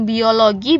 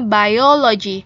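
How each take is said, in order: First: It is pronounced the Indonesian way. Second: It is pronounced the English way. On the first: The speaker calls it wrong. "bukan biologi. Biologi itu bahasa Indonesianya" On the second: The speaker calls it right. "kalau ini bacanya biology"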